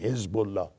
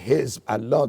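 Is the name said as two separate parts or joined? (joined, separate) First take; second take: joined; separate. First: The two parts are joined into one word. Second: The two parts are said separately with a break. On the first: The speaker calls it right. "they say Hezbollah. They connect it" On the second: The speaker calls it wrong. "they don't say Hizb, Allah"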